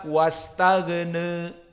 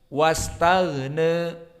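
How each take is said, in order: The two takes are said the same way.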